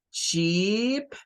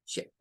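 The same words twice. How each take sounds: First: "Sheep" with a long, stretched ee. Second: "ship" with a short, clipped i. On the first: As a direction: hold the vowel of "Sheep" long and tense. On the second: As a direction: cut the vowel of "ship" short. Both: Shown as a demonstration. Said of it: "estas dos podrían parecerse mucho".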